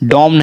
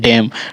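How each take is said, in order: First: The vowel is a rounded 'aw' sound. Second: The vowel is an open 'ae' sound. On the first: The speaker calls it wrong. "डॉम नहीं" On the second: The speaker calls it right. "डैम का उच्चारण हो रहा है"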